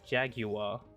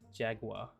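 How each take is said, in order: First: It is said with a British pronunciation. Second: It is said with an American pronunciation. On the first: "British pronounce it" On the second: "American pronounce it"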